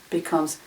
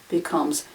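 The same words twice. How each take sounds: Both takes have the same delivery.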